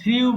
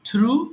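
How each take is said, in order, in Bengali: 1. স্বরধ্বনিটি 'ee' থেকে 'oo'-তে glide করে। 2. স্বরধ্বনিটি একটি সাধারণ 'oo' ধ্বনি। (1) "এটাকেও আমরা সারা জীবন থ্রিউ বলি" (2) "সো এটা হবে"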